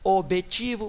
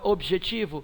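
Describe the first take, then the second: First: The j sound is dropped. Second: The j sound is clearly pronounced. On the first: The speaker calls it wrong. "você não fala objetivo" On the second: The speaker calls it right. "você fala objetivo, é pronunciado o J"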